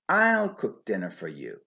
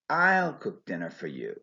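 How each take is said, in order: First: The stress falls on the word I. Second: The stress falls on the word I.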